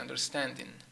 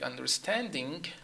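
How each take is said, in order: First: The final g sound is left off. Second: The final g sound is clearly pronounced. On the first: The speaker calls it wrong. "So the G is gone" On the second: The speaker calls it right. "instead of saying understanding"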